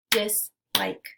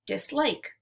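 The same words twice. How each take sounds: First: "Dislike" as two separate beats, DIS, LIKE; split into syllables. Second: Said in the usual way. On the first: Shown as a demonstration. Teacher clapping out syllables for learners, "Dislike" segmented as dis ... like. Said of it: "we'll clap out the syllables". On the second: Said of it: "Let's segment syllables now".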